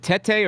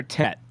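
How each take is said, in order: First: "Tete" said as teh-tay; two syllables. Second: "Tet" stopping on the T; one syllable. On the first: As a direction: sound a second syllable on "Tete". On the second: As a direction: end "Tet" on the T, no vowel after. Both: Shown as a demonstration. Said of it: "so it is just Tet".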